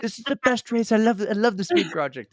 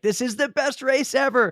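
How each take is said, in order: First: Hammed-up British accent, pitched high; bad British accent. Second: Put-on higher-pitched gushing quote in her own accent; excited quote. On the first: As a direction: imitate an excited Brit with a shaky attempt at the accent. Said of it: "saying in a British accent". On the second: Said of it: "I can't do a British accent".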